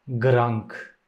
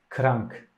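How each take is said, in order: First: The word begins with a voiced G sound. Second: The word begins with a voiceless K sound. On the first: The speaker calls it wrong. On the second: The speaker calls it right.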